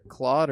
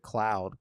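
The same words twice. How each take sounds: First: "Claude" with an open "aw" vowel; Claude pronunciation. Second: "Cloud" with an "ow" diphthong; Cloud pronunciation. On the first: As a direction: say "Claude" to rhyme with "sawed". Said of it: "it's, it's either Claude or". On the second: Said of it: "it's either Claude or". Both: Shown as a demonstration.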